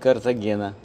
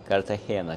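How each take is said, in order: First: The name is said the usual Russian way. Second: The name is said the way locals say it.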